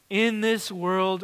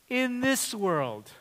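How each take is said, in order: First: "In this world" read slowly with IN leaned on. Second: "In this world" slowly, THIS pushed and falling; stress on THIS. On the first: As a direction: set "In this world" down gently, a light push on IN. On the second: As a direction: point at THIS in "In this world". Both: Shown as a demonstration. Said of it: "See that first phrase?".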